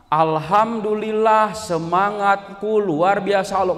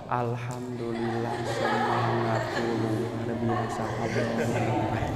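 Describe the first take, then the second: First: It is said loudly and energetically. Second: It is said quietly, low and flat.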